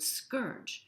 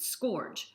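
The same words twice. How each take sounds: First: The vowel sounds like 'our' in the word. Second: The vowel sounds like 'or' in the word. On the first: "S C O U R G E" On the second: "he's pronounced it scourge, S K O R G E"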